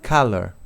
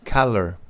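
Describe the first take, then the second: Both takes have the same delivery.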